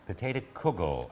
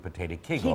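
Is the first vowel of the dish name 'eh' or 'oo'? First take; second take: oo; eh. First: The first vowel sounds like 'oo'. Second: The first vowel sounds like 'eh'. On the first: This is the Lithuanian way of saying it. "kugel was more the Lithuanian or Litvish" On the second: This is the Polish way of saying it. "Kegel is usually the Polish"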